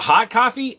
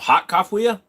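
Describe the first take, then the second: First: Coffee is pronounced in the ordinary way. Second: Coffee is pronounced in an odd, distorted way.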